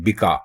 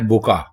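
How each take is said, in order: First: The first syllable has the vowel i. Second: The first syllable has the vowel u. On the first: The speaker calls it wrong. "ये जेर अगर आप बे के नीचे लगाएंगे तो गलत हो जाएगा" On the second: The speaker calls it right. "आप जेर पेश लगाएंगे बे के ऊपर"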